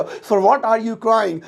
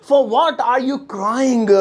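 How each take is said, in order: First: Slow, clear English; teacher modelling the sentence; spaced-out words; slow model sentence. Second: Very slow, word by word; stretched out; slow repeat. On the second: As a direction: drill it for the class. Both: Shown as a demonstration. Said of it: "तुम किस लिए रो रहे हो".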